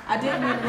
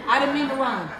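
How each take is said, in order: First: Said in the usual way. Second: Louder, through a laugh; laughing aside. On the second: Real, not acted. Speaker laughing at her own accidental rhyme.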